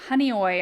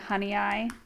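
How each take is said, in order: First: The name ends with an "oy" sound. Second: The name ends with an "eye" sound. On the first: The speaker calls it right. "I guess is how you pronounce the name" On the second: The speaker calls it wrong. "I was saying honey eye"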